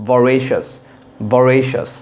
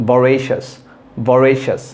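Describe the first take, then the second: The two takes are said the same way.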